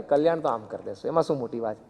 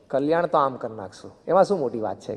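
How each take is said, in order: First: Barely bother, the most effortless shrug in words; utterly casual. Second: Easy offhand reply, no weight on Kalyan; casual, effortless. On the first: Guru repeating his promise of salvation, utterly casual. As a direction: lower and softer, Kalyan dropped lightly as a trifle. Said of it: "અતિ સાહજિક". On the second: Guru reassuring a disciple about salvation, offhand and easy. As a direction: toss it off as if it's nothing. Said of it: "સાહજિક". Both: Retold or imitated.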